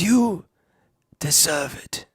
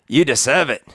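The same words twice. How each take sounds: First: It is said in an old wizard's put-on voice. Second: It is said in a gruff giant's put-on voice. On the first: "I could say it in a Dumbledore way" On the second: "It's uh, Hagrid"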